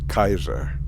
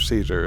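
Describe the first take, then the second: First: The word begins with a hard K sound. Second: The word begins with a soft S sound.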